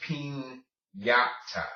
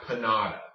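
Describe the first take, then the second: First: Piñata slowly, as peen-YAH-ta; piñata with a clear ny sound; Spanish ñ. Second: Panada with a plain N, no ny; panada, American-style, ñ flattened to N; anglicized piñata. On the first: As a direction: draw out the N-plus-Y in piñata. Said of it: "the N plus Y sound". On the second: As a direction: say piñata as puh-NAH-da. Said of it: "not panada". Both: Shown as a demonstration.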